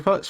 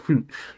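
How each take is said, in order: First: It sounds like the animal word fox. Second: It sounds like the start of fuchsia.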